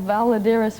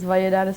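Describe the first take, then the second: First: The name is said with an American English pronunciation. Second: The name is said with a Cuban Spanish pronunciation. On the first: This is how Americans say the name. "for the Americans" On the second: This is how Cubans say the name. "for the Cubans"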